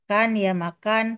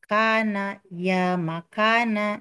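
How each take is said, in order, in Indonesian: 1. Vokal pendek di akhir kata dihilangkan. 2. Vokal pendek di akhir kata dibaca.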